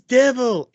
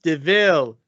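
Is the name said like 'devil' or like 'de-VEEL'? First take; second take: devil; de-VEEL. First: It sounds like the word devil. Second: It sounds like de-VEEL, not devil. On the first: The speaker calls it wrong. "It says devil" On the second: The speaker calls it right. "It's pronounced Deville"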